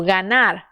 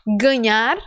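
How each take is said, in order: First: "ganhar" as Spanish ganar, plain N, falling; pronúncia espanhola. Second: "Ganhar" in Portuguese, palatal NH, rising as a prompt; pronúncia portuguesa. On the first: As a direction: answer "ganhar" as ga-nar, with no NH sound. ("ganhar" em espanhol, ganar, com N simples) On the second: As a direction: ask "Ganhar" with the NH sound, tune going up. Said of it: "Isso, ganhar". ("Ganhar" em português, com NH, em tom de pergunta) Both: Shown as a demonstration.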